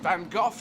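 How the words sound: The name is said the British way. This is how British speakers say it. The speaker calls it wrong. "is pronounced Van Gogh to us"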